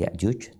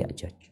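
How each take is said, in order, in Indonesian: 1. Suku kata kedua memakai vokal 'u'. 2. Suku kata kedua memakai vokal 'a'. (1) "bukan Ya'juj" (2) "tapi Ya'jaj"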